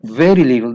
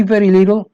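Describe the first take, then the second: First: "very little" kept low but loud, leaning on "very"; low, weighty "very little" to close the point; low firm stress. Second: "very little" pitched high and loud, both words hit; high emphatic "very little" for students; stress on very little. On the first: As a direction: drop the pitch and press "very little". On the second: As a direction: lift "very little" up and punch it. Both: Shown as a demonstration. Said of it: "I told you".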